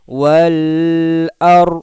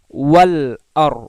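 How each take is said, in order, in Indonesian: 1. Vokalnya dipanjangkan. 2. Vokalnya dibaca pendek dan jelas. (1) "tidak ada kita membaca wal ar" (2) "izhar qamariyah itu dibaca jelas. Maka ketika kita membaca wal ar"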